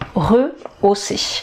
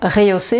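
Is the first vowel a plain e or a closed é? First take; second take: plain e; closed é. First: The first syllable has a plain e sound. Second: The first syllable has a closed é sound. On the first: The speaker calls it right. "mais rehausser" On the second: The speaker calls it wrong. "Donc pas rehausser"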